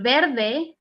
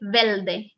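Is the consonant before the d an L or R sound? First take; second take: R; L. First: The consonant before the d is an r. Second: The consonant before the d is an l. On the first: "instead of saying verde" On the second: "they say velde"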